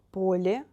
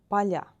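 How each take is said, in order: First: Поле with soft l, stressed first о, rising. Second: Поля with soft l, stressed final я, falling. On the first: Teacher repeats the singular, soft L. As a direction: say POlye with a palatalized л. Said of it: "L is soft because of е". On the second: Teacher repeats the plural, soft L. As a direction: say paLYA with a palatalized л. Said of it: "L is soft again". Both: Shown as a demonstration.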